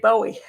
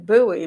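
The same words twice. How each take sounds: First: The first vowel sounds like the 'boat' vowel. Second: The first vowel is not the 'boat' vowel. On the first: This is how people from outside the area say it. The speaker calls it wrong. "People from outside say Bowie. You like the boat" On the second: This is how local residents say it. The speaker calls it right. "I live in Bowie"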